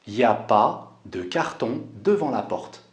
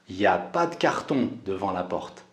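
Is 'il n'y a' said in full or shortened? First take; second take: shortened; shortened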